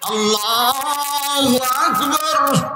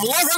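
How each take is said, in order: First: It is called out slowly and drawn out. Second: It is called out fast and hurried.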